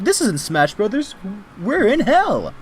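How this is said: It is said in a put-on character voice. The speaker calls it right.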